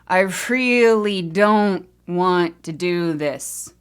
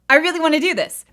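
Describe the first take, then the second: First: It is said slowly, with dread. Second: It is said quickly, with excitement.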